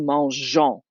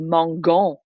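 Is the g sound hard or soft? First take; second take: soft; hard. First: The g is said as a soft zh sound. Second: The g is said as a hard g sound. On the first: The speaker calls it right. "so the G stays soft" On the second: The speaker calls it wrong. "that would change how we would say it"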